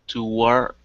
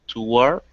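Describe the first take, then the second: No difference in how they are said.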